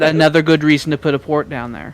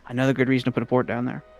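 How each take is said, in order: First: It is said slowly. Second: It is said fast.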